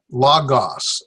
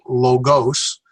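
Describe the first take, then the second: First: "logos" with open vowels, LAH-gahs; Erasmian pronunciation. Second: "logos" with long o's, LOH-gohs; alternative pronunciation. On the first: Teacher models the learned system, "logos" as LAH-gahs. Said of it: "I learned the Erasmus system". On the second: Teacher showing how many people say it, "logos" as LOH-gohs. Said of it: "a lot of people will pronounce this as". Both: Shown as a demonstration.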